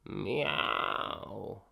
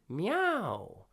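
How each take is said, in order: First: The meow is said in a slack, lazy way. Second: The meow is said cleanly and clearly. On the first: "Then go really lazy" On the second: "first clean"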